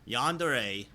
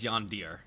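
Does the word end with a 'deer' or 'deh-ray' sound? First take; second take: deh-ray; deer. First: The word ends with two syllables, 'deh-ray'. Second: The word ends with one syllable, 'deer'.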